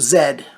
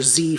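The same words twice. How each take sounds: First: The letter is said the speaker's way, not American. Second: The letter is said the American way.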